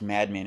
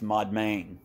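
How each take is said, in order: First: The first syllable sounds like 'mad'. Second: The first syllable sounds like 'mod'. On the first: The speaker calls it wrong. "It's not pronounced madman" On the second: The speaker calls it right. "It's Modmain"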